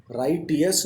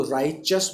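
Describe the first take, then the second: First: राइटियस with a hard T, RAI-ti-us; राइटियस spelled-out style, "right-ee-us". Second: राइचस with T softened into a "ch"; राइचस pronounced "RAI-chus", no separate T; "ch" sound in राइचस. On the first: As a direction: keep the T and sound out "ee-us" in राइटियस. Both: Shown as a demonstration. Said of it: "राइटियस नहीं बोलेंगे".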